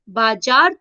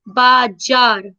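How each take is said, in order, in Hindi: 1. बीच का व्यंजन j ध्वनि है। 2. बीच का व्यंजन z ध्वनि है। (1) "बाजार तो नहीं बोलते ना" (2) "बाजार बोलकर देखिए"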